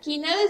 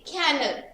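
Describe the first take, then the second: First: The first vowel sounds like the one in 'bed'. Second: The first vowel sounds like the one in 'cat'. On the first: The speaker calls it wrong. "don't uh, say kennel" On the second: The speaker calls it right. "The correct pronunciation of this word is cannel"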